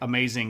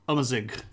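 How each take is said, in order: First: The vowels are plain English A sounds. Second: The vowels lean toward a U sound. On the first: The speaker calls it wrong. "it doesn't actually pronounce like amazing at all" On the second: The speaker calls it right. "the first one is almost like a U sound, and the second one is like a little bit of a U sound as well"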